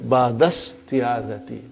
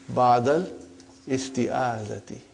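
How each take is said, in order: First: The word-initial vowel is dropped and words run together. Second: The word-initial vowel is pronounced as a separate syllable. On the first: This is how a fluent native speaker says it. The speaker calls it right. "if you were to to study this from your childhood... you have no problem" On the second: This is a simplified form used while learning. The speaker calls it wrong. "for simplicity, I still feel that while we are learning"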